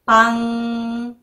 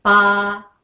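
First: パン with a long, level humming ng; final ng sound. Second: Said in the usual way. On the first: Shown as a demonstration. Teacher repeats for learners, パ held into ng. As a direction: keep the shape of パ and add a held ng. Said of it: "うん、". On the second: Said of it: "もう一回です".

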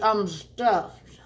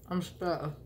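First: Breathy whisper of being full. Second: Said in the usual way. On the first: Real, not acted. Declaring fullness.

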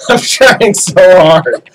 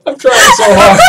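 First: Dragged out through laughter; slow laughing. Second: Laughing through the words; high laughing cry of frustration. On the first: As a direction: laugh it out slowly. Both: Real, not acted. Laughing at own failing attempts.

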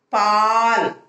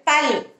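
First: பால் with the "aa" held long; long vowel. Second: பல் with a short, high "a"; short vowel. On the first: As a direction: stretch the vowel of பால் right out. (பால் நெடிலாக, நீட்டி) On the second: (பல் குறிலாக, குறுக்கி) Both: Shown as a demonstration. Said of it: "முதல் எழுத்தோட துணைக்கால் போட்டு".

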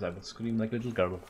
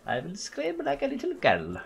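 First: Said in the usual way. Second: Put-on little girl scream. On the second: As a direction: shoot up into a sustained falsetto squeal.

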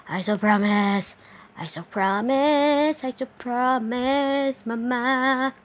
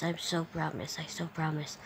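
First: Higher singsong. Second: Soft. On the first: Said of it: "repeated in singsong". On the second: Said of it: "repeated softer". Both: Shown as a demonstration.

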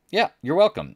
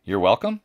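First: Much higher, emphatic welcome with a falling end; smug repeated thanks. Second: Said in the usual way. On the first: Shown as a demonstration. Smug host repeating thanks to viewers, pitched much higher.

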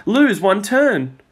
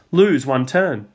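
First: Slow, drawn out and higher; ominous card reading. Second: Said in the usual way. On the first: A narrator's reading. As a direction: read the doom slowly. Peter reads the game card.

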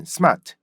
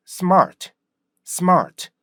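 First: Smart said the Korean way, r dropped; Korean-style pronunciation. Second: Smart punched with springy rhythm and an r; high-falling smart, R clearly heard; native English pronunciation. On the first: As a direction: say smart as smaht, without English rhythm. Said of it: "우리나라 사람들이 발음하는". (한국식으로 R 없이 smart) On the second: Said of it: "이거의 차이예요". (원어민처럼 탄력 있게 smart) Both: Shown as a demonstration.

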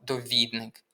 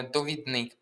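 First: Довідник with stress on middle syllable ВІД; correct stress. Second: Довідник with stress on last syllable НИК; wrong stress. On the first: Teacher correcting the test word, stress on ВІД. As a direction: say довідник as doVIDnyk. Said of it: "Правильно —". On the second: Teacher quoting the mistake to students, wrong stress. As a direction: say довідник as dovidNYK. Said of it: "Неправильно наголос стоїть у слові". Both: Shown as a demonstration.

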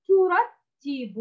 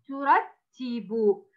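First: Slow ترتب, pitched higher; slow model reading. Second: Very slow ترتب, falling; slow model reading. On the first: Teacher reads the third word, slow and high. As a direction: read ترتب slowly and high. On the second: Teacher repeats the word for the pupil, very slow. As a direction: read ترتب very slowly. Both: Shown as a demonstration. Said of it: "كلمة".

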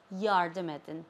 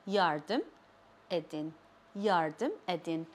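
First: Said in the usual way. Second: "Yardım", clear pause, then a softer "edin"; word by word. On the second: Shown as a demonstration. Teacher breaking "Yardım edin" for learners, word by word.

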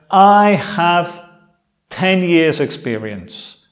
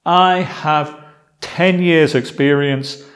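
No difference in how they are said.

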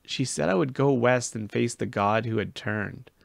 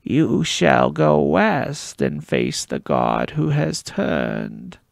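First: Said in the usual way. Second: Slow, loud, eerie prophecy rasped out; raspy oracle voice. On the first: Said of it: "raspy voice of the oracle". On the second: Acted. Gabe to the boy, raspy slow oracle prophecy. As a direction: intone it like a possessed card player. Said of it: "spoke in the raspy voice of the oracle".

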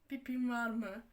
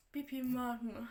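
First: Laughing, slower mock repeat of "Pipin var mı?"; "Pipin var mı?" drawn out slowly through a laugh. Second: Said in the usual way. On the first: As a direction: laugh at how dumb the question is while repeating "Pipin var mı?". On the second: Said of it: "İşte sen kızlar tuvaletine mi giriyorsun".

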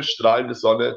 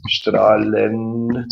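First: Said in the usual way. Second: Strahlende said slowly and carefully; pronunciation demo. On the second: Shown as a demonstration. Teacher showing the class how to say strahlende, carefully. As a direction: lean into strahlende, each syllable clear. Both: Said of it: "Also wir sagen strahlende".

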